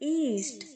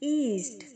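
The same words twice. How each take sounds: The two takes are said the same way.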